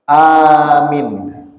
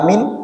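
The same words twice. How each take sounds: First: The first vowel is long, the second short. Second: Both vowels are short. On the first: It means I seek refuge in you. "A-nya panjang, min-nya pendek" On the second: It means safe. "Artinya amin, aman"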